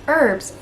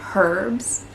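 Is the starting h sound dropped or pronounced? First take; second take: dropped; pronounced. First: The word starts without an h sound. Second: The word starts with an h sound. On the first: This is the American way of saying it. "as we call them over in the States" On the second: This is the Australian way of saying it. "they do pronounce the H"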